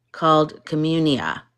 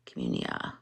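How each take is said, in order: First: Said in the usual way. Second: Breathy whisper of the app name Communia. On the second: Shown as a demonstration. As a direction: whisper the word Communia softly.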